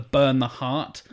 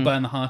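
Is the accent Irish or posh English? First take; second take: posh English; Irish. First: It is said in a posh English accent. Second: It is said in an Irish accent. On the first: "Cumberbatch's posh accent back at him" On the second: "oh, you're Irish now"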